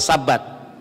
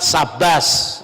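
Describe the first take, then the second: First: It ends with a t sound, Sephardi style. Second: It ends with an s sound, Ashkenazi style.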